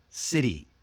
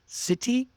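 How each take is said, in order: First: CITY with the T like a quick D, falling; relaxed American flap in city. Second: CITY with a crisp T, high rising; hard, clear T in city, like a question. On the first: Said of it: "sound that's almost like D". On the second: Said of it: "Try it one way". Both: Shown as a demonstration.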